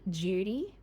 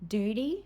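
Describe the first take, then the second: First: It begins with a blended j sound. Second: It begins with a separate d and y sound.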